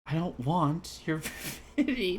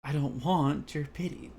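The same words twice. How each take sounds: First: Slow line cracking into a laugh; breaking into laughter. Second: Slow, restrained take; delivered line. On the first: Acted. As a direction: try it and crack up. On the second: Shown as a demonstration. Reading Yuri's line seriously. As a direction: deliver it straight. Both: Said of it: "let me try and deliver this line".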